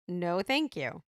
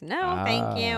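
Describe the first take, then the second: First: It is said in the speaker's normal voice. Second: It is said in a put-on dumb voice.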